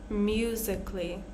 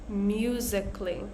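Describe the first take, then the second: The two takes are said the same way.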